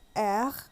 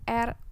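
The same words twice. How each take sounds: First: The letter is named with French pronunciation. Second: The letter is named with Indonesian pronunciation. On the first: "huruf R dibacanya R, cadel" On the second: "Itu tadi saya menyebutkannya dalam pelafalan bahasa Indonesia"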